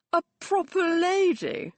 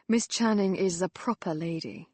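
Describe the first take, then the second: First: Proper lady? jumps high and loud, disbelieving; scoffing high echo of proper lady; incredulous echo. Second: Said in the usual way. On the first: A narrator's reading. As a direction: throw proper lady back in scorn.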